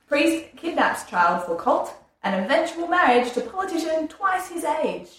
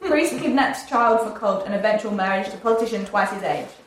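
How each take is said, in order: First: The sentence is read more slowly. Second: The sentence is read quickly. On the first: The speaker calls it right. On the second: The speaker calls it wrong.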